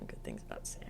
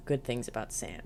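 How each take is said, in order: First: Whispered aside to herself. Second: Said in the usual way. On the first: Shown as a demonstration. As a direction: breathe it out as an aside.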